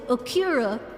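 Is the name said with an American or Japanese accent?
American. It is said with a heavy American accent. The speaker calls it wrong. "I always go Akira ... such a heavy American accent"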